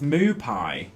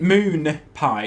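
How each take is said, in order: First: "moo pie" slow, with no N after moo; corrected word. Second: "moon pie" with an N closing the first word; wrong word shown. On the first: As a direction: stretch the open vowel in "moo pie". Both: Shown as a demonstration. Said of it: "it's not moon".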